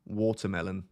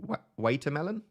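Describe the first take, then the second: First: WATERMELON with the A said as an O; British vowel. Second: WATERMELON tried as "way-ter-melon", questioning rise; literal A. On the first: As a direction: say Watermelon with a British "wor" first syllable. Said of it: "pronounce the A as an O". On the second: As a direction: say watermelon with a puzzled long "ay". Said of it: "how I would pronounce the A". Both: Shown as a demonstration.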